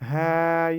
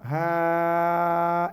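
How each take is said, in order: First: The vowel is kept short. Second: The vowel is drawn out long. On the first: The speaker calls it right. "দেখেন কতটুকু টানছি" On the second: The speaker calls it wrong. "এভাবে বলছি না কিন্তু"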